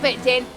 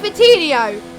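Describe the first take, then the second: First: The name stops short without the final syllable. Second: The name ends with a full final 'nho' syllable. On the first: The speaker calls it wrong. "not Vitin" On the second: The speaker calls it right. "It's Vitinho"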